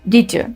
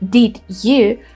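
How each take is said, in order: First: The two words are glued together as one. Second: The two words are said separately and fully. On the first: "they say" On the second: "Instead of saying"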